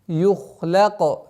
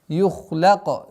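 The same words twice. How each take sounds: No difference in how they are said.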